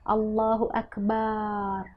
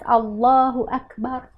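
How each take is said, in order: First: The vowel in the last syllable is long. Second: The vowel in the last syllable is short. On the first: It calls God a drum. The speaker calls it wrong. "Barnya panjang" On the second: It says that God is greatest. The speaker calls it right. "kan jelas Allahu Akbar"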